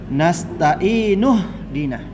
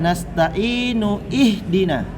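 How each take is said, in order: First: Ihdina's first vowel is dropped and linked into nasta'inu. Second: The 'i' of ihdina is pronounced as a separate sound. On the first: The speaker calls it right. "Yang benar adalah" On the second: The speaker calls it wrong. "Bahaya kalau dibaca"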